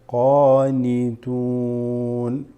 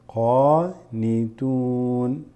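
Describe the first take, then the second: Both takes have the same delivery.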